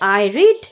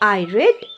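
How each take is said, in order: First: The word read rhymes with need. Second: The word read rhymes with bed. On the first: The reading happens now or habitually. "R E A D এটা আমি লিখে রেখেছি রিড" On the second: The reading happened in the past. "But এর উচ্চারণটা হচ্ছে রেড"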